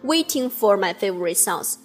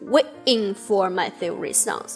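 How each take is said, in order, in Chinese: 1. waiting 里的 t 发音很清楚。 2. waiting 里的 t 会变成一个短暂的停顿。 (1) "他没有唱" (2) "中间是有一个小小的停顿"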